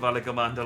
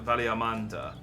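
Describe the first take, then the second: First: The name is said with the G sound. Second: The name is said without the G sound. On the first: "they said the G" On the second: "she wasn't pronouncing the um, the G"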